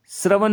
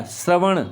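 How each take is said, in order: First: श्रवण ending in plain dental n; wrong dental n. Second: श्रवण ending in a curled-back ṇ; correct retroflex n. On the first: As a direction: say श्रवण with the tongue forward on n. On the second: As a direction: curl the tongue to end श्रवण. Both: Shown as a demonstration. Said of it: "नहीं होता".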